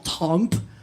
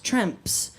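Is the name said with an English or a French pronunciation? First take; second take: French; English. First: The name is said with a French pronunciation. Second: The name is said with an English pronunciation. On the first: "would that be the French pronunciation of it?" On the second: "she said it's Tremps"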